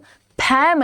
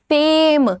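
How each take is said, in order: First: The vowel is a flat short 'a' sound. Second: The vowel is a gliding 'ay' sound. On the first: The speaker calls it wrong. "फैम नहीं" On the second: The speaker calls it right. "ए का sound"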